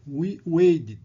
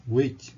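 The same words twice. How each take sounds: First: "waited" said as "weided", T flapped like D; T sounds like D. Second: "Wait" ending on a clean, crisp T; clear T. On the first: Teacher showing students the D-like T in "waited". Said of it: "o T tem o som de D". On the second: Teacher contrasting the clear T in the infinitive. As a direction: finish "Wait" with a sharp T. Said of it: "Você fala T". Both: Shown as a demonstration.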